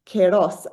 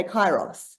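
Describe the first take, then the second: First: Kairos with first syllable like "care"; Greek-style pronunciation. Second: Kairos with first syllable rhyming with "eye"; English pronunciation. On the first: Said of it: "different to the Greek". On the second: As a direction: say kairos as KYE-ross. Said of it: "in English we say kairos". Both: Shown as a demonstration.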